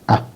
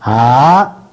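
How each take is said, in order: First: The vowel is held very briefly. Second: The vowel is held about twice as long. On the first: "Hrasva is A"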